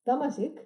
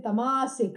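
First: The second syllable is not stressed. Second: The second syllable carries strong stress. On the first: The speaker calls it right. "You don't do that here. We have long and short" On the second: The speaker calls it wrong. "I heard people say tamasic. No, there is no such thing as tamasic"

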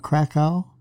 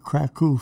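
First: The city name is said the English way. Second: The city name is said the Polish way.

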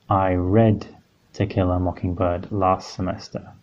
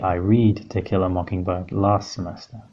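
First: The word 'read' is said like 'red'. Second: The word 'read' is said like 'reed'. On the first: The reading happened in the past. The speaker calls it right. "we know here that it is" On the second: The reading happens in the present. The speaker calls it wrong. "We can't say"

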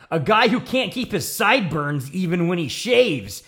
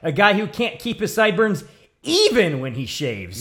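First: The word 'even' is not specially stressed. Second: The word 'even' is strongly stressed.

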